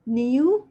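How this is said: It is said in a British accent. "اللي هي British accent"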